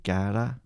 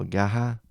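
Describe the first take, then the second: First: Said in the usual way. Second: Gaha with the R breathed out as an H sound; Brazilian R as H. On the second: Shown as a demonstration. Correcting himself for viewers, Gaha with an H for the R. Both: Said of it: "pronounce their R's as H".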